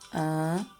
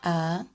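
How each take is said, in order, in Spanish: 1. La vocal es nasal, con aire por la nariz. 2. La vocal es oral, sin aire por la nariz. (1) "Vocales nasales. Son las vocales que pronunciamos por medio de la nariz" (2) "Vocales orales. Son las vocales que pronunciamos por medio de la boca"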